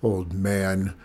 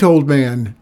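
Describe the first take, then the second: First: Low, affronted repetition; lowered voice, stung and indignant; indignant echo. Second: Loud, urgent hail to a stranger; raised voice, hailing someone; shouted call. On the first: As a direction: echo the insult with contained fury. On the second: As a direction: call out across the dock. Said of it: "he heard a shout from the dock". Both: A narrator's reading.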